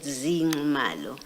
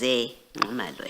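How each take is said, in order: First: The first vowel sounds like 'ee'. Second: The first vowel sounds like 'eh'. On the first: It names a different person. The speaker calls it wrong. "you said Zingumalo" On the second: It names the person in the paragraph. The speaker calls it right. "the correct pronunciation is Zengumalo"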